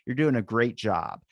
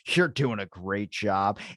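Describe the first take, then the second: First: It is said in a warm, sincere tone. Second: It is said in a sarcastic, insincere tone. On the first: The praise is genuinely meant. "that obviously sounds sincere" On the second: The praise is not genuinely meant. "It's that little bit that's different"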